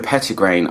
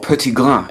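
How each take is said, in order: First: The word is pronounced the English way. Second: The word is pronounced the French way.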